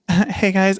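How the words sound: The voice sounds light and feminine. "he sounded like very feminine"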